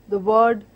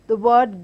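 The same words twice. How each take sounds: Both takes have the same delivery.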